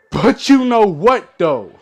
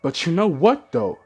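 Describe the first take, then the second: First: Higher, louder and slow; emphatic repeat. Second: Said in the usual way. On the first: Shown as a demonstration. Vlogger sets up his complaint to viewers, emphatic. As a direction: lean hard into the question. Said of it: "first said plainly". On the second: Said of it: "repeated louder".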